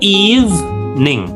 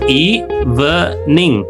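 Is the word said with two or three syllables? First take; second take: two; three. First: The word is said with two syllables. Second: The word is said with three syllables. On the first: The speaker calls it right. "dua suku kata" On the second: The speaker calls it wrong. "tiga suku kata"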